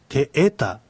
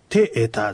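First: The accent falls on the second vowel. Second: The accent falls on the first vowel. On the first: The speaker calls it right. "アクセントは二つ目のえにある" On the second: The speaker calls it wrong. "てえたじゃなくて"

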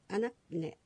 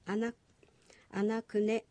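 First: The ku sound is barely pronounced, nearly dropped. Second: The ku sound is pronounced fully and clearly. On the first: The speaker calls it right. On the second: The speaker calls it wrong.

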